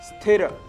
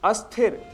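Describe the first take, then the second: First: The word starts directly with the s sound. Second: An extra vowel sounds before the s. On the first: The speaker calls it right. "शुद्ध शब्द है स्थिर" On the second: The speaker calls it wrong. "स्थिर की जगह हम अस्थिर"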